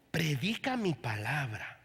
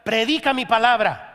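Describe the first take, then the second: First: Lower, softer, slow preacher's voice; imitating Paul Crouch. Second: Booming divine command. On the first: Preacher recalls the evangelist's words, hushed and slow. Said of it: "yo oí la voz de Paul Crouch". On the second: Acted. Preacher voicing God's call to preach, loud and commanding.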